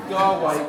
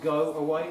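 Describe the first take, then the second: First: Firm loud go away like scolding a dog; bad dog voice. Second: Said in the usual way. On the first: Shown as a demonstration. Trainer showing the audience the bad dog voice, loud. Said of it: "in your best bad dog voice". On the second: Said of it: "one or two syllables, like".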